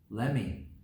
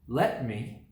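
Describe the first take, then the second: First: The words blend into one short word. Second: Both words are said fully and separately.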